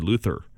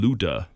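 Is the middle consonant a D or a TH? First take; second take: TH; D. First: The middle consonant is a TH sound. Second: The middle consonant is a D sound. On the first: "but we say Luther" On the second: "with a D"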